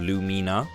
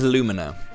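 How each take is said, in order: First: It is said with a Japanese-style pronunciation. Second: It sounds like the middle of 'illumination'. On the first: "the Japanese pronunciation of" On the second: "I've always said it as Lumina, right? As in like illumination"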